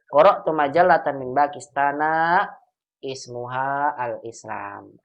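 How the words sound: The last words are separated by a break. "atau boleh dipisah"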